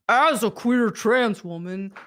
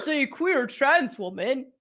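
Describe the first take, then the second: First: It is read imitating the writer's voice. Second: It is read in the speaker's own voice.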